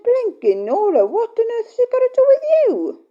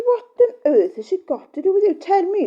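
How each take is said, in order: First: High, loud, exasperated comeback; indignant retort. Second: High loud mock-outrage; indignant retort. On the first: Retold or imitated. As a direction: snap back at the nosy question. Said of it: "Well, I said". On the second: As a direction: throw the question back, exasperated. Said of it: "And I said".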